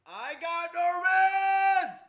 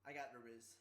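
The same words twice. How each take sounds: First: Loud, much higher, slowly stretched out; hollering the brag in triumph; triumphant shout. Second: Said in the usual way. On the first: Real, not acted. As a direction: bellow it like a victory cry.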